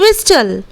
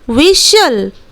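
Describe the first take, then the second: First: The t is sounded; it sounds like wis-tel. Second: The t is silent; it sounds like wissel. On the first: The speaker calls it wrong. "ना कि विस्टल" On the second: The speaker calls it right. "जब हम लोग इस word को प्रोनाउंसिएट करेंगे तब हम लोग इस तरह बोलेंगे"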